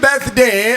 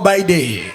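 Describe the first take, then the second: First: The th sound is made with the tongue between teeth. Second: The th sound is dropped, sounding like by day. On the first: It is a polished, upscale celebration. "They always bring out the tongue in between" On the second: It is a rough, local-style celebration. "what they call by day"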